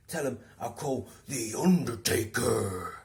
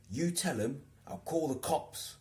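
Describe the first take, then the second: First: Slow, louder mock threat; deadpan absurd warning; imitating Steve. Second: High, slow mock threat; solemn mock warning; imitating Steve. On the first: Steve threatening the harasser, slow mock threat. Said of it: "this is what he did". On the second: Steve warning about the harasser, slow mock threat.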